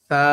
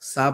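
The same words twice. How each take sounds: First: The letter starts with a soft, thin th. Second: The letter starts with a sharp hissing s. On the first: The speaker calls it right. "পাতলা করে একেবারে।" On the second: The speaker calls it wrong. "অনেকেই স স সা পড়ছেন। এটা হবে না।"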